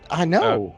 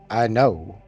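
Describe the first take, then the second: First: It is said in his ordinary voice. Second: It is said in a more masculine voice.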